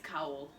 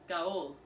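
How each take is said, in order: First: The name begins with an unvoiced K sound. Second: The name begins with a voiced G sound. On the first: The speaker calls it right. "it's with a K" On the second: The speaker calls it wrong. "I would be saying Gaul, right?"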